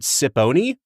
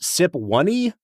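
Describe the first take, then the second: First: The middle is said as a plain 'po' sound. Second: The middle is said like the word 'one'. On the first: "is it Sipony?" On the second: "Is it Sip One-y?"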